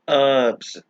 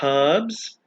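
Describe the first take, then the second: First: The H at the start is silent. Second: The H at the start is sounded.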